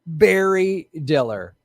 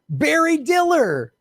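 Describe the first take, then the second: First: Said in the usual way. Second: The name Barry Diller sung out high and drawn out, slow; mock amazement. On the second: Shown as a demonstration. Host revealing the CEO to viewers, in high, slow mock amazement. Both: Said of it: "repeated name".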